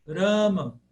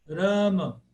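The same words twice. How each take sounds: No difference in how they are said.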